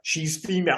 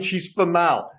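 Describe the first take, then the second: First: The name sounds just like the word female. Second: The name is said as fa-mahl instead. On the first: The speaker calls it wrong. "her name's female" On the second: The speaker calls it right. "Just pronounce it Famal"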